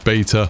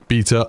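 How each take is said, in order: First: It is said with an American pronunciation. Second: It is said with a British pronunciation. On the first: "in America and some other countries, you say beta" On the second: "in English, the correct way to say beta is beta"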